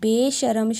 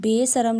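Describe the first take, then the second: First: The middle consonant is a 'sh' sound. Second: The middle consonant is a plain 's' sound. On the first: The speaker calls it right. "ਬੇਸ਼ਰਮ ਸ਼ਬਦ" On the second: The speaker calls it wrong. "ਬੇਸਰਮ ਲਿਖ ਕੇ ਉਚਾਰਿਆ ਜਾਏ ਤਾਂ ਇਹ ਗਲਤ ਹੋਵੇਗਾ"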